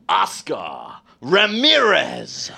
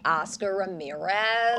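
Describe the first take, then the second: First: Hugely drawn-out, slow movie-voiceover call; announcer voice. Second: Soft American accent, name eased out; understated and softer, in American. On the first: Host's next round of accent duel, slow booming announcer. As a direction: stretch the name out theatrically. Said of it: "we're gonna announce them". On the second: Guest answering host in accent duel, soft American. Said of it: "it'll be like". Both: Shown as a demonstration.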